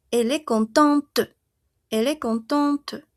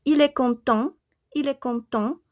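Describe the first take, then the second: First: "contente" with a clearly released t at the end; final T sounded. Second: "content" ending on the nasal vowel, no t; silent final T. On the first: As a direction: say "contente" as "kon-TANT", finishing on the t. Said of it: "voy a pronunciar hasta mi T". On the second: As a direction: say "content" as "kon-TAN", stopping before the t. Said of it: "solo pronuncio hasta mi E N". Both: Shown as a demonstration.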